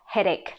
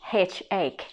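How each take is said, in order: First: The word is said as one smooth word. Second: The word is split into two separate parts. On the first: The speaker calls it right. "Actually, it's just headache" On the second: The speaker calls it wrong. "if you read it as it's spelled, you're gonna pronounce it H ache"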